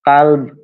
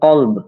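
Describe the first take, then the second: First: The first vowel is an open 'a' sound. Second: The first vowel is an 'o'-like sound. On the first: It means dog. The speaker calls it wrong. "যদি কাল্ব বলেন তাহলে সেটা হয়ে যাবে কুত্তা" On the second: It means heart. The speaker calls it right. "কিন্তু মূলত সেটা হবে কল্ব"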